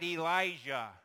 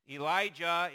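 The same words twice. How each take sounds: First: The J is a soft, shushing sound. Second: The J is a hard J sound. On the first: The speaker calls it wrong. "is not" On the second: The speaker calls it right. "Elijah is with a hard J sound"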